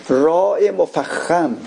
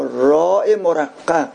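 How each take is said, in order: First: "راء" drawn out slowly with a heavy R. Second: "راء" drawn out slowly with a thin R; light R. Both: Shown as a demonstration.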